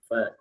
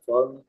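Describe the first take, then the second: First: The 'fa' is said light and open. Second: The 'fa' is said thick and heavy. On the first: The speaker calls it right. "fa-nya tetap terbuka" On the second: The speaker calls it wrong. "jangan fa"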